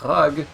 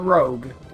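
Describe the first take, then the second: First: The vowel sounds like 'uh'. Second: The vowel sounds like 'oh'. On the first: The speaker calls it wrong. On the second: The speaker calls it right.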